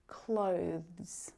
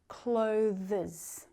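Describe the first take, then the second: First: The final E is silent, one syllable. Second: The final E is sounded as an extra syllable. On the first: The speaker calls it right. "We only want to hear clothes" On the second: The speaker calls it wrong. "we don't want to hear clothes. Clothes is incorrect"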